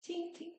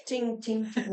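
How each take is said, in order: First: Very high, soft little tings; tiny tinkling bullet sound, very soft; imitated bullet pings. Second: High ringing ting of a bullet; ping it like a distant ricochet; voiced metallic ricochet sound; imitated bullet pings. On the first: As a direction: squeak out faint, high ricochet pings. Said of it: "So not that far off". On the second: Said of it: "hear the bullet in the distance".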